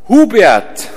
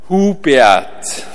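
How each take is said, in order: First: The name is said at a quicker pace. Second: The name is said at a slower pace. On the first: The speaker is being called down because the meal is ready. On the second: The speaker is about to be shown how to do something.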